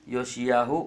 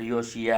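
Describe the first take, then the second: First: The name ends with a long 'yahu'. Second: The name ends with a short 'ya'. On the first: The speaker calls it right. "योशियाहू होना चाहिए" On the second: The speaker calls it wrong. "यहाँ पर योशिया है"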